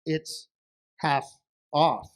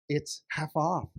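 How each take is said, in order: First: "It's... half... off", a pause between words; deliberate, broken-up "It's half off"; word-by-word repeat. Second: "half off" drawn out a little; slow reveal on "half off"; drawn-out announcement. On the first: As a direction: repeat "half off" slowly, spacing each word. Wife repeats answer word by word. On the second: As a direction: announce "half off" as one slow, unbroken phrase. Wife first announces the discount. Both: Acted.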